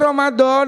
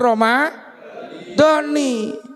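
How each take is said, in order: First: The word ends without a final 'i' vowel. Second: The word ends with a final 'i' vowel. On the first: The speaker calls it wrong. "sing sering ditulis di pinggir jalan" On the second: The speaker calls it right. "padahal sing bener Roma Doni ... ditengeri karo kasra"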